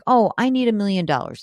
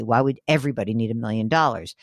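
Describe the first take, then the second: First: Lightly mocking "Oh, I need a million dollars," lifted a bit higher; a hint of a gullible saver parroting "million dollars"; faintly raised, teasing quote of a money myth; mock naive saver. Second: Said in the usual way. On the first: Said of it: "sometimes when you hear, like". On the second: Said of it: "everyone knows that that's just silly".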